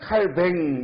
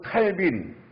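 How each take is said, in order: First: The name ends in a 'baeng' sound. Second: The name ends in a 'bin' sound. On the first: "원래 프랑스어로는 칼뱅 이렇게 발음해야 돼요" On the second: "영어로는 칼빈이라고 그러죠"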